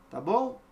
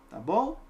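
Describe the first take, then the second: The two takes are said the same way.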